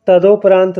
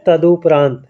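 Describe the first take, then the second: First: तदोपरांत with an o in the middle, tado-paraant; तदोपरांत said the wrong way with o; wrong pronunciation. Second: तदुपरांत with a short u, tadu-paraant; teacher gives तदुपरांत with u, carefully; तदुपरांत said the right way with u; correct pronunciation. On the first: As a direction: say तदोपरांत with o, as the common mistake. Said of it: "गलत उच्चारण करते हैं". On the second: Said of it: "शुद्ध उच्चारण होगा". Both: Shown as a demonstration.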